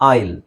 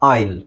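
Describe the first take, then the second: No difference in how they are said.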